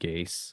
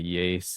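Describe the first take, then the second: First: The word begins with a hard G sound. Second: The word begins with a soft Y sound. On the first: The speaker calls it wrong. "instead of gaze" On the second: The speaker calls it right. "why I say yes"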